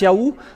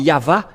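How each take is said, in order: First: The middle sound is an oo vowel. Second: The middle sound is a v consonant. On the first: The speaker calls it wrong. "il y a ceux qui prononcent le OU" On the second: The speaker calls it right. "C'est toujours le V, la vraie épellation"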